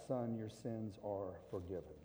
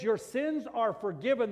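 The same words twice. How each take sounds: First: Softer, lower voice, "Son" said gently; tender words. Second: "sins" hit hard in a loud, high proclaiming voice; preached proclamation. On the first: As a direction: speak it softly, like a father forgiving his son. Jesus speaking gently to the man. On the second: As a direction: proclaim "Your sins are forgiven" to the crowd. Preaching Jesus' words loudly. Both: Acted.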